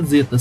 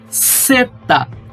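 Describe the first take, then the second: First: The word begins with a buzzing Z sound. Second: The word begins with a hissing S sound. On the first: The speaker calls it wrong. "não se fala zeta" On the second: The speaker calls it right. "se fala seta"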